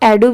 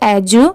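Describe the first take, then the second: First: The middle consonant is a plain 'd' sound. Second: The middle consonant is a 'j' sound. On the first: "E D यू को आप एडू भी pronounce कर सकते हैं" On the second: "और एजू"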